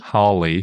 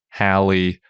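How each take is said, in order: First: The first syllable rhymes with law. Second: The first syllable rhymes with pal. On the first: "or Crawley"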